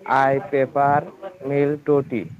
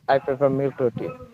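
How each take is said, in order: First: It is said slowly. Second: It is said fast.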